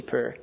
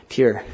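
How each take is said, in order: First: "pure" said like "purr"; mispronounced "pure". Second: Said in the usual way. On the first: Real, not acted. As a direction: drop the y-glide from "pure", so it rhymes with "fur". Slips, then corrects the word.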